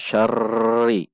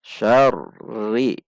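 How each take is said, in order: First: "syarri" dengan r bergetar panjang dan rata; contoh salah tekanan rata. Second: "Syarri" seperti hendak berhenti di r lalu naik; contoh benar tasydid. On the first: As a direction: getarkan r pada "syarri" terus tanpa berhenti. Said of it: "Jadi tidak dibaca". (r "syarri" digulung rata berkepanjangan) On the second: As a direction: tahan r "Syarri" sejenak, jangan digetarkan panjang. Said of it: "Hati-hati". (r ganda "Syarri" tertahan sesaat) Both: Shown as a demonstration.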